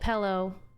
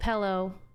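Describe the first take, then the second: First: It has a regional Washington pronunciation. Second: The same.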